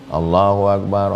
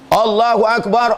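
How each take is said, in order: First: It is said quietly. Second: It is said loudly.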